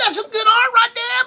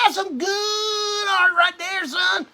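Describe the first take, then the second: First: Quick high falsetto, faking enthusiasm; hammed-up high put-on voice; mock praise. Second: High, slow and wailing, a hammed-up cry; high drawn-out mock sob of praise; overdone mock praise. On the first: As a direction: squeak it out like fake praise. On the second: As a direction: stretch it out like a fake emotional cheer. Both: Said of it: "I'm telling him".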